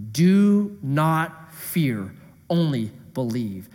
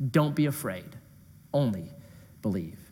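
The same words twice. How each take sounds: First: Slow solemn reading. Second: Soft tender reading. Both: Shown as a demonstration. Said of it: "This is the meat verse".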